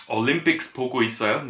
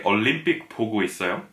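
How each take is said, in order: First: "Olympics 보고 있어요?" quickly, with the final S of "Olympics"; wrong plural form. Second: "Olympic 보고 있어요?" quickly, dropping the final S of "Olympic"; quick native Korean question with no S; natural Korean phrasing. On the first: Teacher showing the phrasing Koreans don't use. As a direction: rattle it off with the English plural S. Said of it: "in Korean you wouldn't say". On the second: Teacher showing how Koreans really ask. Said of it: "People would say". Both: Shown as a demonstration.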